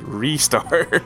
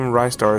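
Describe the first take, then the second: First: The name sounds like restart without t. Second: The name does not sound like restart. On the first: The speaker calls it right. "is supposed to be pronounced as Restar" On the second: The speaker calls it wrong. "the name Rystar"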